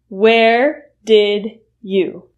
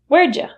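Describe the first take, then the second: First: Did you is said as two full words. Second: Did you is reduced to a single ja sound.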